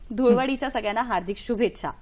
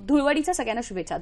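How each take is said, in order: First: It is spoken at normal speed and volume. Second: It is spoken quickly, faster than normal. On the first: "हे normal आवाजातलं normal वाक्य आहे" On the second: "आता हे जेव्हा मी fast म्हणते"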